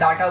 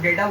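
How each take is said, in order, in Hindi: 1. पहला स्वर 'ah' जैसा सुनाई देता है। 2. पहला स्वर 'ay' जैसा सुनाई देता है। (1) "ऑस्ट्रेलियन लोगों को मैंने सुना वो डाटा बोलते हैं" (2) "हम लोग डेटा बोलते हैं"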